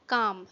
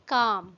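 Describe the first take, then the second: First: The L sound is left out of the word. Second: The L sound is left out of the word.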